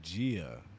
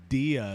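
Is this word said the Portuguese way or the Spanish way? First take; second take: Portuguese; Spanish. First: It is said with the Portuguese pronunciation. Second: It is said with the Spanish pronunciation. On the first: "they say Gia" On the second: "instead of saying dia"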